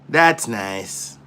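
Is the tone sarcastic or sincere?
sarcastic. It sounds flat and mocking, not pleased. The speaker does not care at all. The speaker calls it right. "it's the most sarcastic shit in the world"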